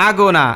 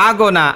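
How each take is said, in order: The two takes are said the same way.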